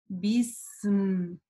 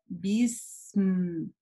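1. Звуки s и m произносятся долго. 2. Звуки s и m произносятся долго.

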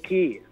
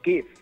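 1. الكلمة تنتهي من غير أي صوت فاء. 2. الكلمة تنتهي بصوت فاء واضح. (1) "بنقول كي" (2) "احنا ما بنقولش كيف"

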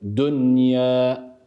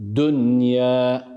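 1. n, y'den önce açıkça telaffuz edilir. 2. n, y'den önce açıkça telaffuz edilir.

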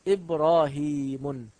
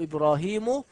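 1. الكلمة تنتهي بنون زائدة. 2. الكلمة تنتهي بدون نون زائدة. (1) "ولا أقول" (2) "أقول"

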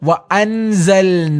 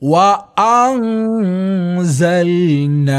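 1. n പൂർണ്ണമായും വ്യക്തമായും ഉച്ചരിക്കുന്നു. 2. n മൂക്കിലെ ശബ്ദമായി മറച്ചാണ് ഉച്ചരിക്കുന്നത്. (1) "ഒരിക്കലും നൂനുസുക്കൂൻ നൽകിക്കൊണ്ട് വ അൻസൽന എന്ന് പാരായണം ചെയ്യാൻ പാടുള്ളതല്ല" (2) "എങ്ങനെയാണ് പാരായണം ചെയ്യേണ്ടത്?"

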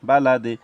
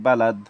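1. শব্দটি চূড়ান্ত i স্বরধ্বনি দিয়ে শেষ হয়। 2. শব্দটি ব্যঞ্জনবর্ণ d দিয়ে শেষ হয়।

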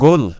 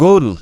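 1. শব্দটি একটি শক্ত g ধ্বনি দিয়ে শুরু হয়। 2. শব্দটি একটি শক্ত g ধ্বনি দিয়ে শুরু হয়।

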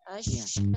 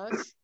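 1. Bunyi sh didorong keluar dengan napas yang kuat. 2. Bunyi sh hanya sedikit napas di belakangnya. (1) "dorong di nafasnya, Mi. Maksimal" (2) "bukan ash"

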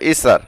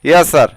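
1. শব্দটি সংক্ষেপে বলা হয়, 'ee' দিয়ে শুরু। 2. শব্দটি পুরোপুরি বলা হয়, 'ya' দিয়ে শুরু।

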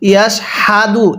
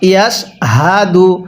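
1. h ধ্বনিটি সাধারণ, গলার আওয়াজ ছাড়া। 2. h ধ্বনিতে হালকা গলার আওয়াজ আছে। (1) "এরকম হা পড়বেন না এখানে।" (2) "হাটা উচ্চারণের সময় গলার মধ্যে হালকা আওয়াজ করতে হবে।"

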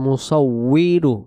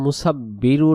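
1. মাঝের ব্যঞ্জনটি গোলাকার w ধ্বনি। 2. মাঝের ব্যঞ্জনটি দ্বিত্ব b ধ্বনি। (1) "সেখানে ওয়াও অক্ষর দিয়ে উচ্চারণটা রয়েছে, সেখানে হবে মুসাউইরু" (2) "আমরা অনেকে পড়ে ফেলি মুসাব্বিরু"

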